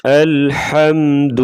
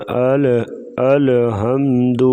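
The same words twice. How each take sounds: First: "الحمد" with ل running straight into ح; still laam, no qalqalah. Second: "الحمد" with an echo vowel after ل, "ale-hamd"; wrongly bounced laam. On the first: Teacher models the right reading, unbounced ل in "الحمد", slow and higher. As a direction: hold the ل of "الحمد" still, no bounce. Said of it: "لام ساکن ہے تو ادھر قلقلہ نہیں ہوگا". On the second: Teacher imitates some readers' mistake, qalqalah on ل in "الحمد". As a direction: bounce the ل of "الحمد" into an extra syllable. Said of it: "ایسے پڑھنا غلط ہے". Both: Shown as a demonstration.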